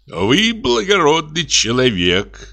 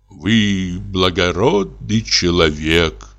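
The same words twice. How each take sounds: First: Higher and slow, a moved exclamation with a rising end; croaked out warmly. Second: Slow, subdued sigh of resignation. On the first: Notary shakes the technician's hand, slow lifted praise. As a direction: praise him with drawn-out, lifted gratitude. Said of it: "прокряпел нотариус". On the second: Notary rises to leave, slow resigned sigh. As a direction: breathe the words out, beaten. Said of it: "вздохнул нотариус". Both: A narrator's reading.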